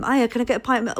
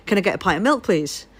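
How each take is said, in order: First: Said in the usual way. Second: Attempted thick Northern English accent. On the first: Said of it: "I can't do the accent now". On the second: Retelling a request to a South African shopkeeper, thick northern accent. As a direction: ask it in broad northern English. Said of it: "in a very thick northern accent".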